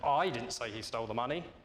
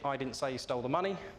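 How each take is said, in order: First: The stress is on the word I. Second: It is said in one flat tone.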